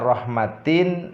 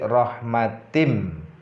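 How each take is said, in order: First: The word ends with a clear N sound. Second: The word ends with a nasal M sound. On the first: "yang seharusnya tadi dibaca rahmatin" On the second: "maka dilebur menjadi rahmatim"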